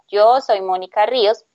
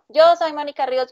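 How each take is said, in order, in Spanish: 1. Se dice a velocidad normal de lectura. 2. Se dice rápido. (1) "normal, como si lo estuvieras leyendo" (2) "la vas a grabar primero así, rápido"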